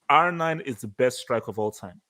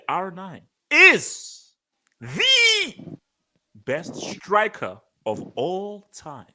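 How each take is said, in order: First: It is read at a quick pace. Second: It is read at a slow pace.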